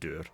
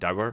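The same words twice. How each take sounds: First: It is said with a Scottish pronunciation. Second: It is said with an English pronunciation. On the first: "but we would pronounce it dour" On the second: "pronounced dour by, by some, normally by people from England"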